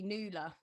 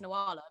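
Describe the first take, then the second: First: The name is said as Nula. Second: The name is said as Nawala. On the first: It is the original Irish pronunciation. The speaker calls it right. "it's actually supposed to be Nula" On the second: It comes from a misreading in a baby name book. The speaker calls it wrong. "my mum read it in a baby name book and got the pronunciation wrong"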